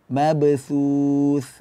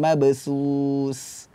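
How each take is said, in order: First: The consonants are soft 'th' sounds. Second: The consonants are hissing 's' sounds. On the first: The speaker calls it right. "ujung lidah berada di bawah gigi seri" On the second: The speaker calls it wrong. "bukan mabsus"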